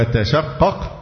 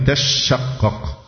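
First: تشقق with a single light shin, no doubling. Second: تشقق with the shin held long and doubled. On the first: Teacher giving the first reading to students, تشقق with a light shin. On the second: Teacher giving the variant reading, تشقق with a doubled shin. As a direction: lean on a geminated sh in تشقق, "tash-shaqqaq". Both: Shown as a demonstration. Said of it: "بتخفيف الشين وتشديدها".

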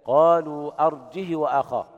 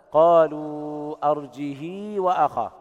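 First: Chanted أرجه, ه with a short kasra and no extension; arjih, short and clipped; no hamza, short kasra. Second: Slow chant stretching ه into a long ii; kasra with sila. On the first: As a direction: recite أرجه as arjih with a brief i on ه. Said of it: "هكذا". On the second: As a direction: recite أرجه as arjihii, the ه carried on a long i. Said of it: "إشباع الهاء مع صلتها". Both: Shown as a demonstration.

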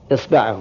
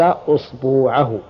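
First: Said in the usual way. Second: أصبوعه as "usbuu'ahu", slow, long u; tenth variant. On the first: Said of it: "يعني". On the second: Shown as a demonstration. Teacher giving an example of the tenth form, أصبوعه with long u. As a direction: stretch the u after ba in أصبوعه, slowly. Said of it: "اللغة العاشرة".

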